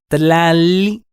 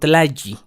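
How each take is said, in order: First: The middle consonant is a clear L sound. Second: The middle consonant is a Y sound. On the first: The speaker calls it right. "La pronunciación correcta es tlali" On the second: The speaker calls it wrong. "y no tlayi"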